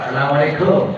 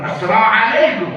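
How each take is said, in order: First: It is said in a Madurese accent. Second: It is said in an imported foreign accent.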